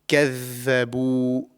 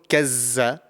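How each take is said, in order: First: The middle consonant is a soft th sound. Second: The middle consonant is a buzzing z sound. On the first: The speaker calls it right. "This is the correct pronunciation" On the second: The speaker calls it wrong. "So it's not kazza"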